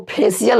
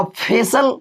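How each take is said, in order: First: फेशियल in three beats, "phe-si-yal"; wrong pronunciation. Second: फेशियल shortened to two beats, "phe-sal"; correct pronunciation. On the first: Teacher showing students what not to read, wrong-way demo. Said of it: "इसको फेशियल नहीं पढ़ते". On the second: Teacher showing students the right reading, model pronunciation. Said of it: "इसको पढ़ते हैं". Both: Shown as a demonstration.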